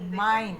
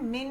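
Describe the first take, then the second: First: The vowel is a long 'eye' sound. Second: The vowel is a short 'i' sound. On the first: The speaker calls it right. "Mine बेटे" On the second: The speaker calls it wrong. "min नहीं बोलते"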